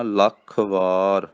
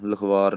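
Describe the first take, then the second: First: ਲੱਖ ਵਾਰ as two words, ਲੱਖ tight and stressed; ਲੱਖ ਵਾਰ said firmly the right way; correct firm pronunciation. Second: Loose, slack "lakhvar"; wrong pronunciation. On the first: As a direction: separate ਲੱਖ from ਵਾਰ, press ਲੱਖ. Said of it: "ਇਹਨੂੰ ਕਹਿਣਾ". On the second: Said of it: "ਲਖਵਾਰ ਨਹੀਂ ਕਹਿਣਾ". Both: Shown as a demonstration.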